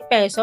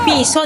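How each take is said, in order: First: The first vowel sounds like 'eh'. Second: The first vowel sounds like 'ee'. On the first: The speaker calls it wrong. "Hindi peso" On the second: The speaker calls it right. "Piso, di ba?"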